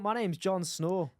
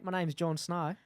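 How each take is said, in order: First: It is spoken in a Scottish accent. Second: It is spoken in an Australian accent. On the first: "in a Scottish accent" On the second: "Do it in a Australian"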